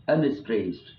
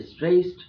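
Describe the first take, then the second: First: Said in the usual way. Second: "stressed" said higher and louder, punched hard; stressed syllable. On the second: Shown as a demonstration. Teacher marking a trochee for the class, "stressed" punched loud. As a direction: hit "stressed" hard and high, like a strong beat. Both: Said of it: "is a trudgy, stressed, unstressed".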